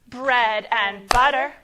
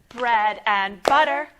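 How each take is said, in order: The two takes are said the same way.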